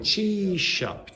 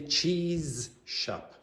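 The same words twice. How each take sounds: First: The z and sh merge into one long sh. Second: The z and sh are said as separate sounds. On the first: The speaker calls it right. "It becomes like a long sh" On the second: The speaker calls it wrong. "You do not say cheese shop"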